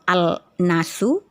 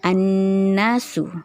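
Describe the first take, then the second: First: A separate L is pronounced before the N. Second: The L merges into a doubled N sound. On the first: The speaker calls it wrong. "tidak lagi terbaca alif dan lam al-nasu, bukan seperti itu" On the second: The speaker calls it right. "dilebur atau disatukan langsung masuk ke dalam huruf nun"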